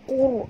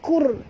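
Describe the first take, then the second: First: The syllable is pronounced thick and heavy. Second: The syllable is pronounced thin and light. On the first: The speaker calls it right. "kena baca kur" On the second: The speaker calls it wrong. "Tak boleh baca kur"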